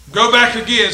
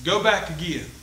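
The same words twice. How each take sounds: First: "Go back again" repeated louder, stress on back. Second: Quiet. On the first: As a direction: restate it with more force, hitting back. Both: Shown as a demonstration. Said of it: "get this point now".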